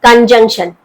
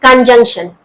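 The two takes are said the same way.

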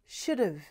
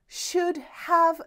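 First: The words run together in one reduced link. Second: Each word is pronounced fully and separately. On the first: The speaker calls it right. "이렇게 연음이 되죠" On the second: The speaker calls it wrong. "이렇게 친절하게 원어민들은 발음하지 않습니다"

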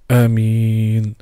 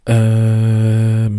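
First: The vowels in the word are kept short. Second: A vowel in the word is drawn out long. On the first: "kurz, und zwar Amin, ohne das Elif zu verlängern" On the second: "man darf verlängern bis zu 6 Harakat"

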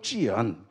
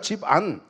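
First: The name is said with a Chinese-style pronunciation. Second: The name is said with a Korean-style pronunciation. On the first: The speaker calls it wrong. "한자 뜻풀이 한답시고 뭐 찌안" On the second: The speaker calls it right. "우리말로 집안이라 그러면 되잖아요"

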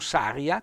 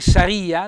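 First: The stress falls on another syllable. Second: The stress falls on the i syllable. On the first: The speaker calls it wrong. "non saria" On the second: The speaker calls it right. "un bel accento sulla i"

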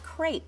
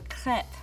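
First: The word is said with an English pronunciation. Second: The word is said with a French pronunciation. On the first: "You may have heard the word pronounced as crepe" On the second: "if we were in France, we would say crepe à la française"

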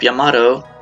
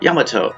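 First: The name is said with an English pronunciation. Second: The name is said with a Japanese pronunciation. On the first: The speaker calls it wrong. "they call the ship Yamato" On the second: The speaker calls it right. "in Japanese it is really pronounced Yamato"

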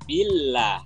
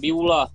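First: The lah sound is light and thin. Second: The lah sound is heavy and thick. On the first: The speaker calls it right. "tapi Billah" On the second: The speaker calls it wrong. "jangan Biullah"

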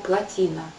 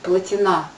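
First: The stress falls before the final syllable. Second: The stress falls on the final syllable. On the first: This is the standard form of the word. "Ни в том, ни в другом слове ударение не падает на последний слог" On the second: This is how people say it locally. "Плотина здесь произносят поголовно, я не слышала другого ударения"

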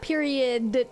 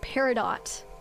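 First: The word sounds like 'period', ending in 'od'. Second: The word ends with a clear 'dot' sound. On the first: The speaker calls it wrong. "Not period" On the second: The speaker calls it right. "It's peridot"

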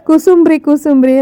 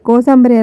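First: It is said as three syllables, ku-sum-bri. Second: It is said as four syllables, ko-sam-ba-ri. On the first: This is the colloquial spoken form. The speaker calls it wrong. "ನಮ್ಮನೇಲಿ ಕುಸುಂಬ್ರಿ ಕುಸುಂಬ್ರಿ ಅಂತ ಹೇಳ್ತಾ ಇದ್ರು" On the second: This is the standard written form. The speaker calls it right. "ಪುಸ್ತಕದ ಭಾಷೆ ಪ್ರಕಾರ ಕರೆಕ್ಟಾಗಿ ನೋಡ್ತಾ ಹೋದರೆ ಅದರ ಉಚ್ಚಾರಣೆನೇ ಬೇರೆ ಇರುತ್ತೆ"

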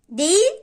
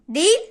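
No difference in how they are said.

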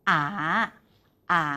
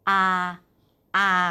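First: The syllable is said with a rising pitch. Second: The syllable is said on a level pitch. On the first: "เสียงที่2 ... ใกล้เคียงกับเสียงจัตวาในภาษาไทย" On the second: "เสียงที่1 ... ใกล้เคียงกับเสียงสามัญของภาษาไทย"

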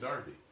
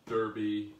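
First: Derby is said with a British 'dar' vowel. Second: Derby is said with an American 'der' vowel.

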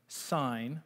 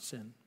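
First: The word is not said like English 'sin'. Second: The word is said like English 'sin'. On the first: The speaker calls it right. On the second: The speaker calls it wrong.

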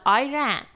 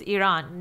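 First: The first syllable sounds like the word 'I'. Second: The first syllable does not sound like 'I'. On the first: The speaker calls it wrong. "not Iran, because Iran means I ran away" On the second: The speaker calls it right. "the correct way to pronounce Iran is Iran"

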